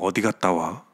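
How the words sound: It sounds suspicious and doubting.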